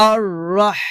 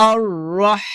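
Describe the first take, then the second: The two takes are said the same way.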